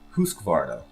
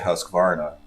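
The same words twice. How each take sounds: First: The name is said the native way. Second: The name is said the American way. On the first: This is how the name is really said. The speaker calls it right. "I think it's actually" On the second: This is how people in America say it. The speaker calls it wrong. "here in America we say"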